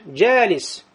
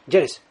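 First: The vowel is held long. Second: The vowel is cut short. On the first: The speaker calls it right. "То есть ты тянешь" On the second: The speaker calls it wrong. "ты же не говоришь джалис"

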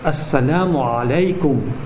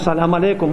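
First: The greeting starts with an extra syllable before salam. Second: The greeting starts directly with salam, clipped short. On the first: The speaker calls it right. "правильно произносить этот салям" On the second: The speaker calls it wrong. "Не салям алейкум"

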